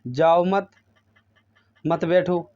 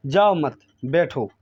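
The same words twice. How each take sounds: First: "मत" joined onto "बैठो"; misheard phrasing. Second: "जाओ मत" as one unit, then falling "बैठो"; intended phrasing. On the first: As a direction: pause before "मत बैठो". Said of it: "मैंने सुना". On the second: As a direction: punch "जाओ मत", break, drop lower on "बैठो". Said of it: "उसने कहा". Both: Shown as a demonstration.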